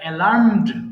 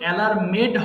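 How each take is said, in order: First: The ending is a bare 'd' sound. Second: The ending is an extra syllable, 'med'. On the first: The speaker calls it right. "এটা অ্যালার্মড" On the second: The speaker calls it wrong. "এটা কিন্তু অ্যালার্মেড হবে না"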